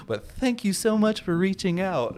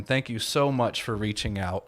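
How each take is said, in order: First: Higher, sugary fake-polite thanks; mock sweet sign-off hiding contempt; passive aggressive. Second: Said in the usual way. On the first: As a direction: smile through it while meaning the opposite. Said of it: "the most passive aggressive". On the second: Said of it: "such a passive aggressive".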